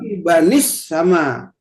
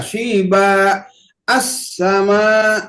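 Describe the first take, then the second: First: The words run together with a linking i sound. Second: The words are separated with a fresh a start. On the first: The reader continues without stopping. "Kalau di wasol" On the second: The reader stops before the next word. "Kalau di wakop"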